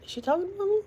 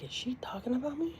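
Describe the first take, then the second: First: High squeak of disbelief; shocked. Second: Breathy whispered disbelief. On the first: Retelling catching herself mentioned, shocked high pitch. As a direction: gasp it out in shock. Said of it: "I was shocked". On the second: Whispering it again while recalling the live. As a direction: hush it to yourself. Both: Retold or imitated.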